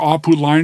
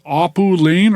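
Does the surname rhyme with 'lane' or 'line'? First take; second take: line; lane. First: The surname's vowel sounds like 'line'. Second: The surname's vowel sounds like 'lane'. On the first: "but he pronounces it Line" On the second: "the probably more the North American butchering of it, just Lane"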